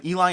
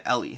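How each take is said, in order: First: Eli said as EE-lie; long-I pronunciation. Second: Ellie said as EL-ee. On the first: Streamer weighing a viewer's name, Eli said with long I. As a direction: Eli ending like the word lie. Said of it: "Ellie is more of a typical". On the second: Streamer weighing a viewer's name, Ellie with short E. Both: Shown as a demonstration.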